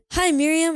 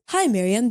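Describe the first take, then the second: First: Said in the usual way. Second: Put-on a sloppy, half-British accent on the greeting; bad British accent. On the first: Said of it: "Should I do, like, another voice?". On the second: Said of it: "I hope you enjoyed my terrible accent".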